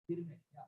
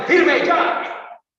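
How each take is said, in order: First: "firme ya" said limp and much softer, no force at all; weak command. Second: Loud, sharp police chief's order, higher; commanding shout. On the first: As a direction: mumble the order like nobody will obey. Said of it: "¿Usted cree que una voz de mando es". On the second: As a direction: bark the order at the ranks. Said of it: "Antes, para formarle". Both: Acted.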